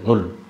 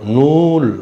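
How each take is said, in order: First: The vowel is said short. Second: The vowel is said long. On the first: The speaker calls it right. "Vowel குறில் மாதிரி ஒழிக்கிறோம்" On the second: The speaker calls it wrong. "நூல் கிடையாது"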